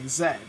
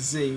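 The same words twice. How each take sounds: First: The letter is said the British way, zed. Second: The letter is said the American way, zee.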